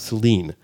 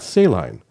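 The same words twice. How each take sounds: First: It is said unlike the salt-water word. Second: It is said like the salt-water word. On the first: This is what the town is called. The speaker calls it right. "a town outside of Ann Arbor called Saline" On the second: This is not what the town is called. The speaker calls it wrong. "and not saline, although it's spelled the same"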